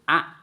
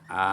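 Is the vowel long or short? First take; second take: short; long. First: The vowel is short and pressed. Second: The vowel is drawn out long. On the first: The speaker calls it right. "untuk membedakan ditekan" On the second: The speaker calls it wrong. "membacanya di panjang-panjang"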